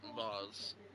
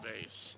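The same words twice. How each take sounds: First: It is said with a British pronunciation. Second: It is said with an American pronunciation.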